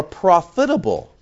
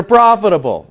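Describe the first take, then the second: First: "profitable" broken up oddly, prof-itable; odd pronunciation. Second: Said in the usual way. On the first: Shown as a demonstration. Preacher reading the verse to his congregation, "profitable" oddly pronounced. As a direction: say "profitable" in deliberately split-up, quirky syllables. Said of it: "You ever heard it pronounced that way before?".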